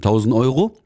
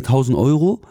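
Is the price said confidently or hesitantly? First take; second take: confidently; hesitantly. First: It is said quickly and without any hesitation. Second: It is said shakily and with hesitation. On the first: The speaker stands fully behind the price. "wie aus der Pistole geschossen" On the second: The speaker is unsure the price is justified. "die meisten Friseure zittern dann"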